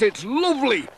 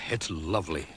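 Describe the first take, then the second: First: High, bright calling lady's voice on lovely; cheerful lady voice. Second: Soft, low and contented; warm. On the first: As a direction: call it out gaily from the ice. Woman skating calls happily. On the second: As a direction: sigh it out, cosy by the fire. Warming by the stove. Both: A narrator's reading.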